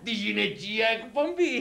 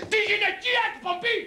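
First: Knowing repeat. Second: High-pitched comic dismay; raised, incredulous echo of the title; mock dismay. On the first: Acted. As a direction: let it sink in slowly, chuckling. Repeats the show title, first take. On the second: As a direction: repeat it high, as if appalled. Repeats the show title, aghast.

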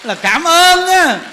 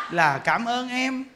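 First: Là cảm ơn á said louder and slowly, punching ơn; emphatic thanks. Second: Là cảm ơn em said softly and slowly, amused; soft mock thanks. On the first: Shown as a demonstration. Monk stressing the lesson to listeners, loud slow emphasis. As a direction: boom it out slowly to the congregation. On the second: Wife thanking husband's mistress, soft slow mock gratitude.

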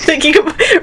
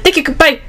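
First: Higher-pitched mock Chinese-accented goodbye; hurried imitation of a Chinese accent; imitated Chinese accent. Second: Quick, higher-pitched retold sign-off; hurried goodbye. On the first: Imitating the restaurant worker's goodbye, mock Chinese accent. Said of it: "how they talk so fast". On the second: Retelling beating her to the goodbye, hurried. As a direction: rush the sign-off out. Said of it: "I was really fast".

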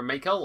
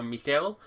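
First: "Michael" said in the everyday English way; first pronunciation variant. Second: "Michael" said in a foreign-sounding variant; alternative pronunciation. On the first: Reviewer naming the champion for viewers, "Michael" in English pronunciation. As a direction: say "Michael" as the common English name. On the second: Reviewer offering viewers another pronunciation, "Michael" said less English. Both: Shown as a demonstration. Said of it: "depending what your pronunciation".

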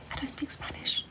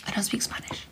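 First: Breathy high whisper, almost silent. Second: Whisper. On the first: Whispering to her live-stream viewers, high and hushed. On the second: Repeats the line as a whisper. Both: Real, not acted.

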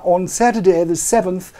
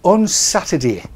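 First: Tidy newsreader "Saturday"; BBC English. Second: Broad mock Cockney "Saturday"; Cockney put-on, loud. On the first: Shown as a demonstration. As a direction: clear standard English "Saturday". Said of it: "B B C English". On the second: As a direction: drop into a jokey London accent. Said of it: "down south where they talk like that".

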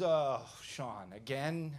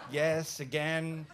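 First: Imitating a cocky gatekeeper; smug, weary retold question. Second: Louder, firm comeback; retold blunt answer, landed firmly; defiant retort. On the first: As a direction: question it like you've caught him out before. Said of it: "he gets cocky". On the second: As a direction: admit it without apology. His own defiant answer back.

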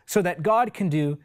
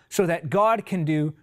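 The two takes are said the same way.

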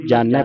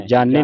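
First: ਜਾਣੈ ending in open "nai"; correct vowel. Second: ਜਾਣੈ said with closed "ne"; wrong vowel. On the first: Teacher shows the class how to read it, correct vowel. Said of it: "ਪੜ੍ਹਨਾ". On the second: Teacher shows what not to read, wrong vowel. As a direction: say ਜਾਣੈ as "jaane", plain "e". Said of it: "ਨਹੀਂ ਪੜ੍ਹਨਾ". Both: Shown as a demonstration.

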